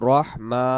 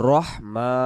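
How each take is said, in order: Both takes have the same delivery.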